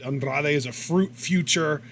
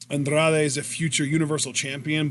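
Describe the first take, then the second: First: "fruit" slipped in before "future"; imitated slip of "fruit" for "future"; verbal botch. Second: Said in the usual way. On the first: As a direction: stumble onto "fruit", then correct it to "future". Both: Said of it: "he had a little verbal botch".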